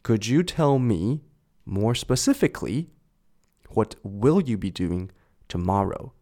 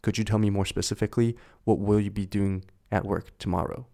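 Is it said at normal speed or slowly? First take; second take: slowly; normal speed. First: It is said slowly. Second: It is said at normal speed.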